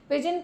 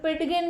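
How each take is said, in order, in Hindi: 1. इस शब्द में d की कोई ध्वनि उच्चारित नहीं होती। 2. d की ध्वनि g से पहले उच्चारित होती है। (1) "ਡੀ ਸਾਇਲੈਂਟ ਇਹਦੇ ਵਿੱਚ" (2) "ਇਹਨੂੰ ਪਿਡਗਿਨ ਨਹੀਂ ਬੋਲਣਾ ਕਿਸੇ ਨੇ"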